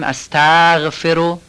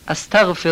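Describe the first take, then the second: First: The gh sound is hard with a lengthened vowel. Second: The gh sound is soft with a quick vowel. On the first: The speaker calls it wrong. "استغفرو سفت نباید بگیم، یا فتحه قبلشو نکشیم، استغفرو غلطه" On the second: The speaker calls it right. "فتحشو سریع بگیم، هم غینو راحت و سریع بگیم"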